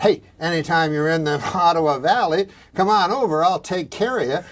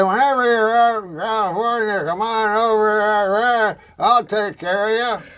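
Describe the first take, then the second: First: Lightly voiced friendly rural uncle; a hint of a country uncle, clearly worded; Uncle Basil. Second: High, loud garbled slur; Larry Flint. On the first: Uncle Basil invites him over, lightly imitated. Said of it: "my Uncle Basil, if he said". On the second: Retold or imitated. Larry Flint invites him to California, garbled and high. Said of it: "when Larry Flint says".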